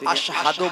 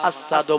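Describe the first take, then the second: First: The word has an 'sh' sound before the 'h'. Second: The word has a plain 's' sound, no 'h'. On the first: The speaker calls it right. "তিনি আশহাদু বলতে পারতেন না" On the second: The speaker calls it wrong. "আসাদু বলতেন। ... উচ্চারণটা সহি হতো না"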